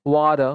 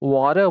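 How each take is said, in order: First: The middle consonant is a soft d sound. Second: The middle consonant is a soft d sound.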